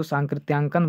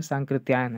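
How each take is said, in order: First: सांकृत्यांकन with a wrong -yaankan ending; common mispronunciation. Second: सांकृत्यायन with its proper -yaayan ending; corrected pronunciation. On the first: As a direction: put a nasal and a k into the end of सांकृत्यांकन. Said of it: "कुछ लोग इसको सांकृत्यांकन बोल देते हैं". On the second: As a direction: end सांकृत्यायन on a y glide, -aayan, without any k. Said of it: "लेकिन सांकृत्यायन है". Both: Shown as a demonstration.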